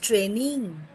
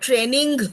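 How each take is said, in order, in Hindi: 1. इसके अंत में केवल एक नासिक ध्वनि है। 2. इसके अंत में अलग, कठोर g ध्वनि है। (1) "It is training. Mm. It's not ing. So we hear one single sound" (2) "It's not training"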